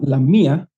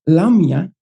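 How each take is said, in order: First: The stress is on the last syllable. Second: The stress is on the first syllable. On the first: It names a town. "the tone at the end part" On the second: It names a mythical child-eating monster. "if you put the tone on La"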